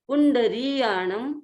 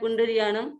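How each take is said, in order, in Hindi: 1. 'ri' स्वर लंबा खींचा जाता है। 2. 'ri' स्वर छोटा कर दिया जाता है। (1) "ध्यान थोड़ा सा देंगे तो शुद्ध हो जाएगा" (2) "री को बहुत बार हम छोटा बोल देते हैं"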